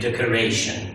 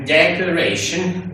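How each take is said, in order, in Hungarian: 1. Az első szótagnak nincs másodlagos hangsúlya. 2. Az első szótagnak van másodlagos hangsúlya. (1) "nem lehet azt mondani" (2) "muszáj azt mondani, hogy decoration, visszaüt egy másodlagos hangsúly"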